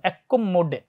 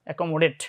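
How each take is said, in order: First: The c and m sounds are doubled. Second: The c and m sounds are short.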